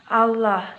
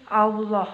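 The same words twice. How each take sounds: First: "Allah" with a light l and a bright a, as in alah; wrong thin lam. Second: "Allah" with a heavy, dark l and a rounded aulo vowel, said slowly; correct thick lam. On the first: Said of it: "bukan Allah". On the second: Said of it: "tapi Allah". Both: Shown as a demonstration.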